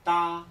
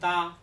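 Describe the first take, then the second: The two takes are said the same way.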